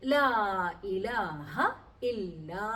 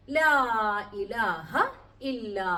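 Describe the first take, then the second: No difference in how they are said.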